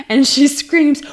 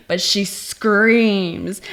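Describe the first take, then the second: First: Higher and louder, winding up; louder, rising build. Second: Said in the usual way. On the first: Shown as a demonstration. Film fan hyping the funny scene, louder build. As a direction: push it up as the scream arrives.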